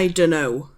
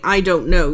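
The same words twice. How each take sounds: First: The words are run together and reduced. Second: Every word is pronounced fully and clearly. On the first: The speaker calls it right. "we don't pronounce fully" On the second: The speaker calls it wrong. "You wouldn't say I don't know usually"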